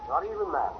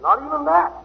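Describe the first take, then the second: First: "Not even that" dropped low and quiet; a hushed, sober aside; soft echo. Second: "Not even that" pushed up high; emphatic denial. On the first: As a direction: let it fall away under the breath. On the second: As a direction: punch "that" with a rising snap. Emphatic repeat. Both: Acted.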